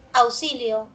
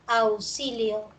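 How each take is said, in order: First: Said in the usual way. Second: Auxilio drawn out slowly, syllable by syllable; slow syllable count. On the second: Shown as a demonstration. Teacher to class, counting phonemes: slow, drawn-out word. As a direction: stretch Auxilio out so students can count its sounds. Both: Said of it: "Tenemos uno, dos, tres".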